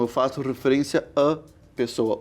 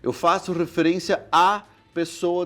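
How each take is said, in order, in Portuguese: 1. O 'a' antes de 'pessoa' é fechado. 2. O 'a' antes de 'pessoa' é aberto. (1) "um a mais fechado" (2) "O português diria"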